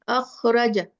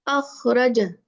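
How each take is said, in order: Both takes have the same delivery.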